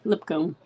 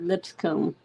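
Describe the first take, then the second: First: It is said without an s before comb. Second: It is said with an s before comb. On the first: "L I P C O M B" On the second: "Or L I P S. Lips, and then C O M B"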